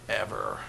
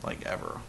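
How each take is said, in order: First: Flat low echo of the word; low deadpan ever. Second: Breathy whisper, barely voiced; hushed aside; whispered ever. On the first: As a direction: drop it low and soft. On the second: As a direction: whisper it like a secret. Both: Shown as a demonstration.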